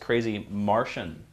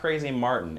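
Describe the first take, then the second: First: The name ends like the word 'Martian'. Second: The name ends like the word 'Martin'. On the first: The speaker calls it right. "It's Crazy Martian with an O" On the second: The speaker calls it wrong. "I mispronounced. It's not Crazy Martin"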